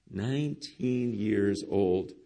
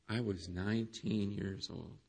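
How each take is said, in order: First: Put-on Nineteen years old, slow and drawn out, each word weighed; the pastor repeats James's age slowly for weight, drawn-out emphasis; slow emphatic repeat. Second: Low and very soft, almost under the breath; the pastor retells James's confession quietly, low and hushed; hushed retelling. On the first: Let Nineteen years old sink in slowly. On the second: Retold or imitated. Quiet confession.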